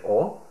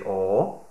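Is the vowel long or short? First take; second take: short; long. First: The vowel is kept short. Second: The vowel is held long. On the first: The speaker calls it right. "just say O" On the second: The speaker calls it wrong. "don't say O"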